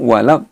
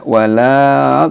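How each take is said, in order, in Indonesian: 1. 'La' dibaca pendek dan langsung lanjut. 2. 'La' ditarik panjang sebelum bunyi berikutnya. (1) "nah langsung walau" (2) "tidak walau, nah enggak"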